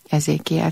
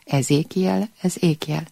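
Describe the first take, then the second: First: It is said as one ordinary word. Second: The first syllable is split off with extra stress. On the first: It is the name of the prophet. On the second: It points out that this is the name.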